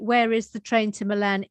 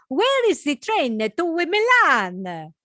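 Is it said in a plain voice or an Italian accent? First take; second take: plain voice; Italian accent. First: It is said in a plain, normal voice. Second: It is said in a put-on Italian accent.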